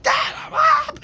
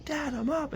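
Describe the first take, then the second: First: Very high, loud, drawn-out yell; hammed-up exasperated holler, slow and loud; escalated mock shout. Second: High-pitched acted reply; retold call back. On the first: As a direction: yell back at Dad at full stretch, acted. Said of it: "everything would escalate". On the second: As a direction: imitate a kid calling back to Dad. Acts out calling back to dad.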